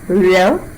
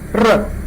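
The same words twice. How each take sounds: First: The tongue glides without touching the roof of the mouth. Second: The tongue briefly taps the roof of the mouth. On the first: "pronounced as R as a frictionless continuant" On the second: "You can feel the tongue tapping against the roof of the mouth intermittently"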